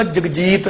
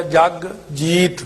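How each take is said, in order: First: ਜਗਜੀਤ quick, run together; joined as one name. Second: ਜਗ, slight break, then ਜੀਤ; two separate words. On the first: Teacher giving the name for contrast, ਜਗਜੀਤ run together. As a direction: say ਜਗਜੀਤ as a single word. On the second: Teacher explaining the spelling, ਜਗ kept apart from ਜੀਤ. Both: Shown as a demonstration. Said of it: "ਇਸ ਕਰਕੇ ਵੱਖਰਾ ਹੋ ਗਿਆ".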